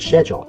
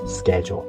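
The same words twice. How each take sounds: First: It is said in a British accent. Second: It is said in an American accent. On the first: "British people they would say schedule" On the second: "American accent is schedule"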